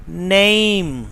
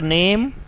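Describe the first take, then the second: First: "name" with a gliding "ay" vowel; British pronunciation. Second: "name" with a pure "eh" vowel; Pakistani pronunciation. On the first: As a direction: draw name out as "neh-eem". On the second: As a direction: say name as "nehm", no glide. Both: Shown as a demonstration. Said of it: "not name".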